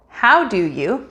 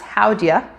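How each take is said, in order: First: All three words are said fully and separately. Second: The three words are reduced to 'how'd ya'.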